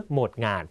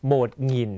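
First: โหมดงาน ending in ngan, with a long a; โหมดงาน, second word with an open aa vowel; second variant of "thousand". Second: โหมดหงิน ending in ngin, with an i vowel; โหมดหงิน, second word rhyming with "in"; first variant of "thousand". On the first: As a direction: say งาน with ng and a long a. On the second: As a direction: say หงิน with ng and a short i. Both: Shown as a demonstration. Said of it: "อกเสียงได้สองแบบ".

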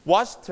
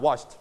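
First: "washed" as "wotch-tuh", strong t; sounded final t. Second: "washed" as "wotcht", light t; softened final t. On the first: Teacher shows the E D ending, "washed" as "wotch-tuh". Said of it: "you also pronounce t again". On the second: Teacher lowers the volume, "washed" as "wotcht" with soft t. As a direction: turn down the t on "washed", no "tuh". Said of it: "and volume down". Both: Shown as a demonstration.

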